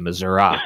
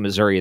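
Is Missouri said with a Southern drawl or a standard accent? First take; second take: Southern drawl; standard. First: The word is said with a Southern drawl. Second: The word is said in a standard accent. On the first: This is said to appeal to rural voters in mid-state. "they say Missouri. ... They get a southern draw" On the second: This is the usual way to say the state name. "they don't say Missouri"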